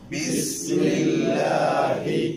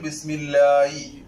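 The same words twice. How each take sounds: First: The final h is said with breathy airflow. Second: The final h is said without breathy airflow. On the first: The speaker calls it right. "പരിശീലിച്ച് കാറ്റോടുകൂടെ പറയണം" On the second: The speaker calls it wrong. "കാറ്റ് നടന്നിട്ടില്ല, വായിൽ നിന്നാണ് പറഞ്ഞത്, തൊണ്ടയിലോട്ട് വന്നിട്ടില്ലെങ്കിൽ"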